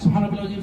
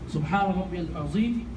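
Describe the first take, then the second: First: The phrase is said quickly and rushed. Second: The phrase is said slowly and deliberately. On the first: The prayer is being rushed. The speaker calls it wrong. "This is completely wrong" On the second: The prayer is given its proper time. The speaker calls it right. "Say it slowly. This is how you should say it"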